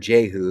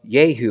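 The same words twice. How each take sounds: First: The name has the English pronunciation. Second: The name has a non-English pronunciation.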